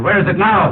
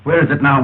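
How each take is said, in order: First: Higher, pressing stress on "now"; insistent repeated question. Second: Said in the usual way. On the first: Acted. Officer demanding where the suitcase is, insistent. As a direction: demand it, pitching "now" up and letting it fall.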